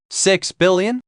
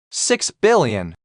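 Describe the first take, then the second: First: "Six billion?" asked with a sharp rising pitch; incredulous echo. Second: Calm, slow, falling delivery of "Six billion"; slow price demand. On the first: Rich man hears the ransom, rising disbelief. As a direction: repeat "Six billion?" as if you cannot believe it. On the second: Kidnapper names his ransom, slow and flat. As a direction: let "Six billion" drop slowly and flatly, like a verdict. Naming a huge price, slowly. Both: Acted.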